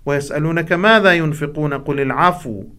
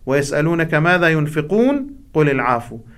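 First: It runs on without a stop after ينفقون. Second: There is a stop after ينفقون. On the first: The question and the answer form one unit. "إذا يقع بنفس واحد أفضل من الفصل بينهما" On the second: The question and the answer are separated. "بإمكاننا أن نقف على كلمة ينفقون كما فعل الشيخ المنشاوي"

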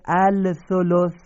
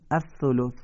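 First: The lam is pronounced before the next letter. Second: The lam merges into a doubled next letter. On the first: This is how the word is written. "نوشته الثلث" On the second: This is how the word is actually read. "میخونیم الثلث"

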